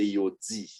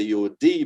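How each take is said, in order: First: Yo DI with D softened toward dzee; tongue touching the teeth on di in yo di; Creole yo di. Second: Yo DI with a hard English D, like dee; learner's yo di. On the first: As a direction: model yo di as yo dzee, falling softer. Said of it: "but we say yo di". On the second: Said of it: "you say yo di". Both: Shown as a demonstration.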